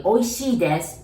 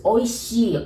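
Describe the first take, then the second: First: "oishii desu" with "desu" added and the stress on "oishii"; formal Japanese phrase. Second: "oishii" alone, said plainly with a falling end; casual Japanese word. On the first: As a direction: model the polite "oishii desu" after the casual one. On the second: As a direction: model the casual "oishii" without "desu". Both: Shown as a demonstration. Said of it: "So you use".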